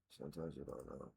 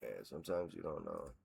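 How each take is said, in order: First: Barely audible, much softer repeat; under his breath. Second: Muttered much softer and lower, to himself; half-said thought while reading; muttered aside. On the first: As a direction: echo the thought almost inaudibly. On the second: Muttering to himself over stats. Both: Real, not acted.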